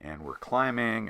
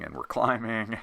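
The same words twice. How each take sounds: First: Said in the usual way. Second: "climbing" repeated with a laugh. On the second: Real, not acted. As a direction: chuckle through "climbing".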